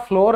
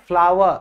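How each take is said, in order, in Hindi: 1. इसका स्वर floor वाले स्वर जैसा है। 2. इसका स्वर flower वाले स्वर जैसा है। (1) "बेटा फ्लोर नहीं है" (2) "फ्लावर जो फूल होता है ना, उसकी और इसकी प्रोनाउंसिएशन सेम है"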